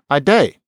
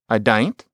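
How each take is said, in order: First: Shortened further to day, with no final t. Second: The vowel changes, giving dain't. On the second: "You can imagine maybe saying dain't in a certain kind of British or maybe Australian accent"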